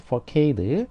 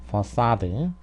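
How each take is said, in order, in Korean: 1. c는 k 소리로 나요. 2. c는 s 소리로 나요. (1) "영어식으로 발음하면" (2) "프랑스어를 거쳐서 이렇게 온 거기 때문에"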